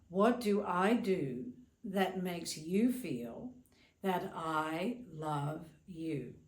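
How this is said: It is asked in a dismissive, self-centered tone.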